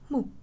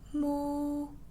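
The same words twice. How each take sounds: First: It is said in the short, sharp fourth tone. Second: It is said in the first tone. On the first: "And lastly, the original tone" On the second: "That's number one"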